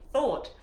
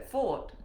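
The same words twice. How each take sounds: First: "thought" with a clear th; higher, careful "thought" with a true th; corrected th. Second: "thought" said as "fort"; "thought" fumbled with an f sound; slipped th. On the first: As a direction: say "thought" carefully, tongue-tip th at the start. Corrects her th on repeat. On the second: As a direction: say "thought" with an f in place of th. Stumbles on th, then repeats it. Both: Real, not acted.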